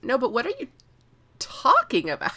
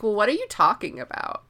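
First: Higher-pitched mock bafflement, pausing before "talking"; insistent retold question. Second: Mildly puzzled mock question; baffled retold question. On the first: Edric keeps asking what Scytale means, insistently baffled. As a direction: press the question harder, acting baffled. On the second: Edric keeps being like this to Scytale, mildly baffled. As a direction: ask it as if not following.

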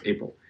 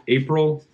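First: Said in the usual way. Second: April said high and clear; stressed April. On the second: Shown as a demonstration. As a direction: lean on the word "April" with a lifted pitch. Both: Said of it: "not August".

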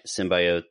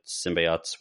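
First: "symbiotes" with middle syllable like "buy"; long-i symbiotes. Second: "symbiotes" with middle syllable like "bee"; long-e symbiotes. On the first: Offering listeners one way to say it, "symbiotes" as SIM-by-ohts. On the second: Offering listeners the other way, "symbiotes" as SIM-bee-ahts. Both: Shown as a demonstration. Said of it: "whatever you wanna call 'em".

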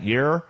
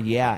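First: "you're" as a mispronounced yeah; Nikita's Australian "yeah". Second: Said in the usual way. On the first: Retold or imitated. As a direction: say "you're" with an r-coloured ending, for yeah. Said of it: "it sounds like". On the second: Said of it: "She can't say the word".

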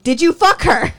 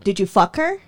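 First: Loud, high, insistent question; raised-voice retold interrogation; heated demand. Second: Said in the usual way. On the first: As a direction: demand it louder after getting no answer. Retold question escalates after silence. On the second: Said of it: "and I asked him".

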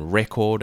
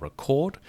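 First: "record" stressed on the first syllable, REC-ord. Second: "record" stressed on the last syllable, re-CORD; stress on second syllable. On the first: Teacher contrasting word stress for English, "record" stressed up front. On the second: Teacher contrasting word stress for English, "record" stressed at the end. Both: Shown as a demonstration. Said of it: "English creates the same issues with its word stress".

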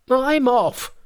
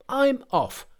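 First: Very high, loud parting cry; loud, high-pitched monkey outburst; enraged Monkey. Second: Very high, petulant monkey voice; high-pitched huff at normal volume; huffy Monkey. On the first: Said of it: "His silence enraged Monkey even further". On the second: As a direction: end the outburst high, without extra volume. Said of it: "he flared up at once and cried". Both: A narrator's reading.

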